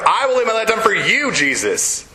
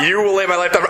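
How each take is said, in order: First: "I will lay my life down" with "I" stressed and pitched up, rising; corrected, stress on I. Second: "You" hit hard, with a laugh in the voice; wrong version, stress on You. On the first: Preacher correcting the quote, "I" punched and high. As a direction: correct it by pushing "I". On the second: Preacher mocking Peter's misspoken vow, "You" stressed. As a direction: lean on "You will lay my life down" as the wrong version. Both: Shown as a demonstration.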